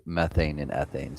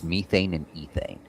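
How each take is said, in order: First: Said in the usual way. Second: "methane and ethane" with long ee, MEE-thane and EE-thane; British pronunciation. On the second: Shown as a demonstration. Streamer showing how the British say it, "methane and ethane" as MEE-thane and EE-thane. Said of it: "the British pronounce that".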